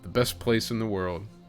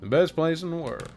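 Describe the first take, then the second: First: It is read in the speaker's ordinary voice. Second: It is read in a put-on character voice.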